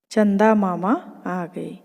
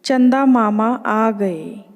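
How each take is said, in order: First: Slow, gentle happy chant; softer slow echo of the cheer. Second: Put-on chanted, children cheering slowly; chanted, drawn-out happy welcome; gleeful group chant, unhurried; joyful slow chant. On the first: Acted. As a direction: let the cheer fall back a little. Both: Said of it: "खुशी से तालियां पीटकर".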